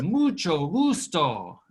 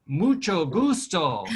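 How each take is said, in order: First: "Mucho gusto" drawn out slowly, stress on "mucho"; slower model. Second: "Mucho gusto" slowly, stress on "gusto"; slow Spanish model. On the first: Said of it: "Very good". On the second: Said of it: "Let's try saying". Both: Shown as a demonstration.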